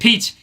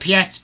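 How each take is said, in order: First: The name is said the English way. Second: The name is said the French way. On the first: The speaker calls it right. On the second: The speaker calls it wrong.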